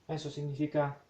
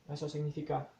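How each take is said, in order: No difference in how they are said.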